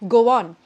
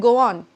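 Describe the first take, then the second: First: The words are joined by a light w sound. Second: The words are joined by a light w sound.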